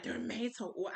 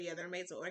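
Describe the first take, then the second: First: Imitated questioning repeat; mildly incredulous echo; surprised echo. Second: Said in the usual way. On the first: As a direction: repeat it back as if amazed. He echoes it in surprise.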